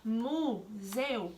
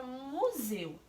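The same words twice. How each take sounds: First: "museu" said very slowly, syllable by syllable; "museu" drawn out slowly as a syllable split. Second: Said in the usual way. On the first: Shown as a demonstration. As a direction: spell out "museu" in separate beats. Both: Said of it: "E ao separar museu".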